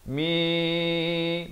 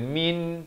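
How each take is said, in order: First: The final nasal is blurred into a soft hum. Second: The final n is pronounced fully and clearly. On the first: The speaker calls it right. "Rendahkan sedikit bunyi dengungnya itu kepada samarkan" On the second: The speaker calls it wrong. "bukan min"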